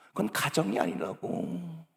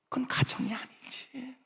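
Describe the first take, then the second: First: Said in the usual way. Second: "그건 가정이 아니지" whispered, "그건" rising; hushed aside, rising on "그건". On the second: Shown as a demonstration. ("그건 가정이 아니지"를 속삭이며 "그건"을 올려서)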